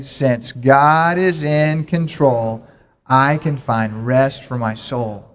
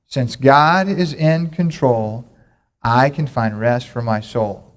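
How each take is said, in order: First: Even slower, stretched out, every word drawn long; slower, fuller recitation. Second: Slow, deliberate call-and-response chant; slow recitation. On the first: Pastor urging the congregation to say it better, slow emphatic chant. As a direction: say it better, really lean into it. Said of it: "Now we can say it better than that". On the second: Pastor leading the church in a memory verse, slow chant. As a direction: spell it out slowly for the congregation to repeat. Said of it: "we're gonna say it together". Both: Shown as a demonstration.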